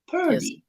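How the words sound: The R comes after the first vowel. The speaker calls it wrong. "I've heard some of you say"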